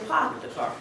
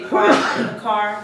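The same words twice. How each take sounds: First: The R sounds are dropped, New England style. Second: The R sounds are pronounced.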